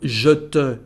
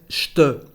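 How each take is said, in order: First: Both syllables are said in full. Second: The two words run together as one syllable. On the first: The speaker calls it wrong. "Instead of" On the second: The speaker calls it right. "we have a contraction"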